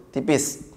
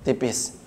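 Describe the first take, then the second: The two takes are said the same way.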